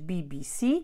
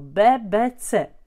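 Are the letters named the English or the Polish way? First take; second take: English; Polish. First: The letters are said with English letter names. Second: The letters are said with Polish letter names. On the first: "nie będziemy mówić B B C" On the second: "zgodnie z polskim alfabetem"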